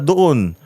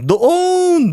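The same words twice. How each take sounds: First: It is said short and quick, without tune. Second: It is drawn out with a high-pitched tune. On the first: The place is nearby. "Pag yung mabilis na" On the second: The place is far away. "ganun yung tono"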